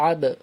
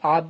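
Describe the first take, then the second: First: The final b is released with a bouncing echo. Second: The final b stops flat without an echo. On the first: The speaker calls it right. "আব কলকলা হবে" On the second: The speaker calls it wrong. "আব না করে"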